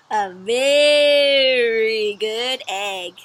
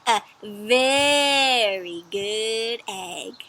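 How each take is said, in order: First: "very" drawn out long, louder; stretched very. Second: "very" drawn out very long and slow; stretched very. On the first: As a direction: read "very" super long. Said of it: "read it like this". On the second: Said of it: "the word very is stretched out super long". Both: Shown as a demonstration.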